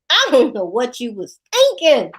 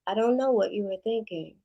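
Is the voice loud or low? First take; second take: loud; low. First: It is said in a louder, harsher voice. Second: It is said in a lowered, calmer voice.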